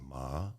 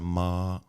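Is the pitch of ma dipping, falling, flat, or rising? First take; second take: rising; flat. First: The pitch rises toward the end. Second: The pitch stays level and flat. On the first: "The second tone is rising ma, like you're asking a question" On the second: "flat sound ma"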